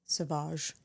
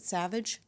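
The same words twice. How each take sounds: First: Sauvage said the French way, soh-VAHZH; French pronunciation. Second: Said in the usual way. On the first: Shown as a demonstration. Unsure of the cologne's name, trying Sauvage with a French pronunciation. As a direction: say Sauvage as a French word, stress on the end. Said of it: "Am I making that up?". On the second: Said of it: "Sauvage. Am I making that up?".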